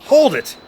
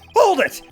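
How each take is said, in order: First: It is said in the speaker's natural voice. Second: It is said in a put-on character voice.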